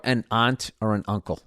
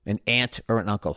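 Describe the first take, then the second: First: "aunt" with a broad open ah vowel, like ahnt; "aunt" pronounced ahnt, not ant. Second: "aunt" with a flat a, like the insect ant; "aunt" pronounced ant, not ahnt. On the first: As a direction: say "aunt" as ahnt, rhyming with want. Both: Shown as a demonstration. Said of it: "however you're supposed to say it".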